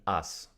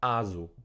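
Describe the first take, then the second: First: It is said with modern Russian pronunciation. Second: It is said the older way, not modern Russian. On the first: "with the correct, correct modern Russian pronunciation" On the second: "it was called Azu"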